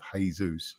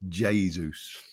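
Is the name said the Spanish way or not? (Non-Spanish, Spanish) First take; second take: Spanish; Non-Spanish. First: The name is said the Spanish way. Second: The name is not said the Spanish way. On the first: This is the familiar pronunciation. The speaker calls it wrong. "we're used to the Spanish sort of Jesus" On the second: This is how the player says his own name. The speaker calls it right. "He pronounced it Jesus"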